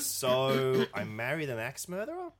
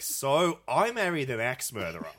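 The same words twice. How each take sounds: First: It ends with a rising, questioning tune. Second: It ends with a falling, bragging statement tune.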